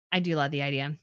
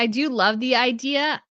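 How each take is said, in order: First: Quiet dreamy repeat. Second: Said in the usual way. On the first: Real, not acted. Repeating it dreamily to herself about the trip, lower and softer.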